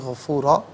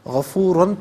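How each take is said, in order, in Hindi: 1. शब्द लंबे "आ" स्वर पर खत्म होता है। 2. शब्द न की आवाज़ पर खत्म होता है। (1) "वक्फ की सूरत में गफूरा पढ़ा जाएगा" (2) "गफूरन पढ़ेंगे"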